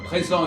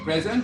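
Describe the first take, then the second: First: It is said with a French nasal vowel. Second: It is said with an English accent. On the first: "au lieu de dire" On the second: "ils disent"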